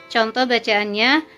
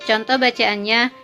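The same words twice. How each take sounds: Both takes have the same delivery.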